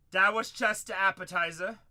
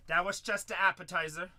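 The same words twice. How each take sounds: The two takes are said the same way.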